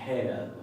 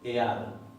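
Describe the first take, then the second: First: The word starts with a breathy h sound. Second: The word starts with a vowel, no h. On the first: "la mayoría de las personas dirían eso se pronuncia head" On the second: "no te va a decir, ahí dice ear"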